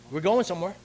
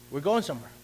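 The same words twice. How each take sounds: The two takes are said the same way.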